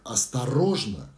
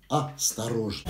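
First: The word has a single main stress. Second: The word has an extra secondary stress. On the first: The speaker calls it right. "не осторожно" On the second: The speaker calls it wrong. "а осторожно"

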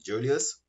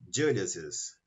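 First: It ends in a plain s, no extra syllable. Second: It ends with an added 'iz' syllable. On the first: "Aqui eu pronuncio Julius" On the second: "e aqui eu pronuncio Julius's"

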